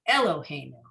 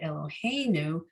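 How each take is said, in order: First: The stress is not on the 'hei' syllable. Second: The stress is on the 'hei' syllable. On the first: The speaker calls it wrong. "You don't say Eloheinu" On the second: The speaker calls it right. "the emphasis is on the hey"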